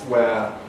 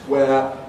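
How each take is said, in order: The two takes are said the same way.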